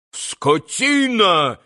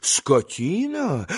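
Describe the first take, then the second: First: High, drawn-out insult, half-yelled. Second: Slow, quieter, questioning echo; incredulous echo. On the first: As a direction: yell the insult slowly, stretching it. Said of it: "заорал было пан Врублевский". (протяжный негодующий выкрик) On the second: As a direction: throw the insult back as a question. Хозяин переспрашивает брошенное оскорбление. (недоверчивый переспрос) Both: A narrator's reading.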